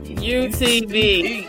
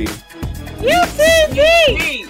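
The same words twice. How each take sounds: First: It is said with low energy. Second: It is said with high energy.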